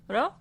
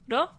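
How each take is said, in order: First: It starts with a tapped sound between r and l. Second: The same.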